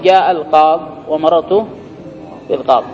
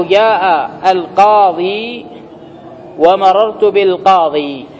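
First: القاض cut off on the d sound, no ee; final ya dropped. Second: Slow, القاضي with a long final ee; final ya kept. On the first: Teacher showing the allowed pause, ya dropped. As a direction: end القاض and بالقاض on the bare consonant. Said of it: "ويجوز حذفها". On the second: Teacher reading examples of pausing, ya kept. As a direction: stretch the ee ending of القاضي and بالقاضي. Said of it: "بإثبات الياء". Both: Shown as a demonstration.

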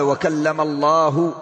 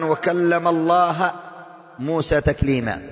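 First: Slow recitation with الله read Allahu, damma; correct vowel on Allah. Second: Slow recitation with الله read Allaha, fatha, the mistake; wrong vowel on Allah. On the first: Preacher reciting the correct vowel of الله slowly. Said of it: "بالضم ليس بالفتح". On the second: Preacher reciting the wrong vowel of الله slowly. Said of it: "هذا خطأ عظيم". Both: Shown as a demonstration.

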